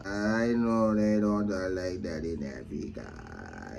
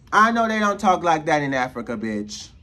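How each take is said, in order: First: Very slow, deep monotone repeat; low drawn-out drone. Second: Loud, punchy repeat at natural pitch; emphatic insistence. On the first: Shown as a demonstration. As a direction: stretch every word out, low and soft. Repeats the line in exaggerated slow drone. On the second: Real, not acted. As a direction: drive the words home forcefully. Snaps back to emphatic repeat of line.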